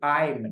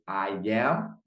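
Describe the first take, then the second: First: It is said as one contracted syllable. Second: It is said as two separate words. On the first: "eu digo I'm na forma contraída" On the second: "Enquanto eu digo I am"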